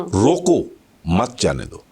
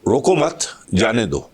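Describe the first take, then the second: First: Slow "रोको", a clear break, then "मत जाने दो" together; pause after रोको. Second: "रोको मत" as one unit, then "जाने दो"; group "रोको मत" together, break, then let "जाने दो" fall; pause after मत. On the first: Teacher showing how pauses change meaning, pause after रोको. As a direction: stretch "रोको", stop, then drop low through "मत जाने दो". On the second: Teacher showing how pauses change meaning, pause after मत. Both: Shown as a demonstration. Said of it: "stresses and pauses".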